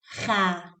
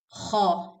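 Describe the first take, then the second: First: The letter is said with a light, thin sound. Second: The letter is said with a heavy, full sound. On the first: The speaker calls it wrong. "not ha" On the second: The speaker calls it right. "the sound should come heavy, like ho"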